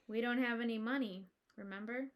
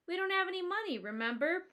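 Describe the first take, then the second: First: The line is read in a glum tone. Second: The line is read without a glum tone. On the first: The speaker calls it right. "said glumly" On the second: The speaker calls it wrong. "I said that wrong"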